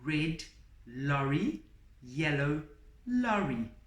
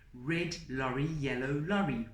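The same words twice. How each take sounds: First: It is said very slowly. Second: It is said a little faster.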